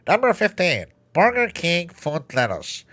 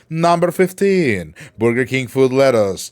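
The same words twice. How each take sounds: First: It is said with the nose held closed. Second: It is said in a normal voice.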